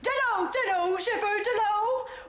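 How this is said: It sounds firm and commanding, like a colonel.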